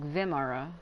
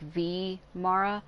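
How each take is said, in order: First: The first syllables run together smoothly. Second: The first syllable is separated from the rest. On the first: The speaker calls it wrong. "I used to say Vimara, like Vimara" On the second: The speaker calls it right. "She's separating the the V I from the M, like V Mara"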